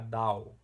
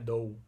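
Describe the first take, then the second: First: The vowel sounds like 'ow' in 'cow'. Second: The vowel sounds like 'oh' in 'go'. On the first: The speaker calls it wrong. "Talvez você ache, ah, D A O" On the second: The speaker calls it right. "Não, é D O U. Essa palavra se fala D O U"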